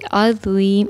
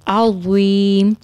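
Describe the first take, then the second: First: The z sound is light and thin. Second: The z sound is heavy and full. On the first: The speaker calls it wrong. "इस तरह नहीं पढ़ेंगे" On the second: The speaker calls it right. "आइन को सही तरीके से अदा करके और ज़ुआ को मोटा करके"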